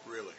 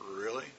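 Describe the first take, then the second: First: It sounds firm, like an emphatic statement ending. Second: It sounds doubtful, like a questioning reaction. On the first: The speaker insists they mean what they said. "that means I'm kind of doubly emphasizing" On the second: The speaker doubts what was just said. "all you got to do is raise your eyebrow"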